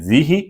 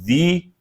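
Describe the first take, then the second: First: The h is followed by a short i. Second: There is no h; it ends in long ee. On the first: "हा के जेर करके" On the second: "हा की बजाय या ही का साउंड बोलते हैं"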